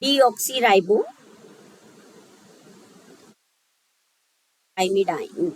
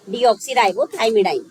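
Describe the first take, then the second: First: Deoxyribothymidine stretched syllable by syllable, very slowly; teacher dictating a long chemical name slowly; very slow sounding out. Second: Said in the usual way. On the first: Shown as a demonstration. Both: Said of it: "चलिए".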